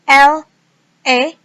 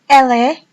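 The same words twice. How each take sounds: First: The two words are said separately. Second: The two words are linked together.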